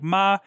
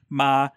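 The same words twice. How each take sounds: First: The pitch is high and stays level. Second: The pitch is mid and stays level. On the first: "there's a high flat" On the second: "and then a mid flat"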